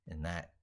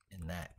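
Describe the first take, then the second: No difference in how they are said.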